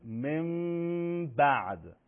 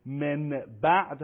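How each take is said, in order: First: «من بعد» as mem-ba'd with a very long level hum; hidden mim. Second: Said in the usual way. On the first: Shown as a demonstration. Teacher demonstrating a famous example, long hummed mim before ba. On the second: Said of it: "دو مثال معروف".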